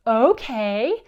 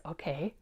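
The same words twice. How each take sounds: First: Loud, higher, drawn-out happy agreement; big-smile okay. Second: Put-on soft, small child's reply; quiet okay. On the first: Retold or imitated. Son agreeing to clean up Legos, loud gleeful okay. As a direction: imitate a kid proudly agreeing with a grin. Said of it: "smiles, big smile, and says". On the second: Son agreeing to mother's tricky request, soft reply. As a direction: lightly imitate a boy quietly agreeing. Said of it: "he looks at me and he says".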